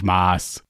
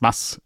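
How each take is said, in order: First: It is said the Swabian way. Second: It is said the Bavarian way. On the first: The speaker calls it wrong. "nicht Maß" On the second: The speaker calls it right. "das heißt Mass"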